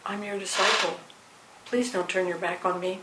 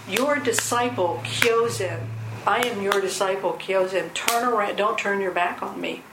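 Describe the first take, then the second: First: Softer, gently asking; a humble plea not to be ignored; mild pleading disciple. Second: Blunt disciple calling out; direct. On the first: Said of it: "It could have been". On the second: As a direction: plainly insist on respect. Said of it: "he says". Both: Retold or imitated.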